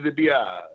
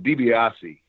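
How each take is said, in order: First: The name is said without its final vowel. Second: The full name is said, with its final vowel. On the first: "they would drop that E" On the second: "the DiBiase is the correct pronunciation"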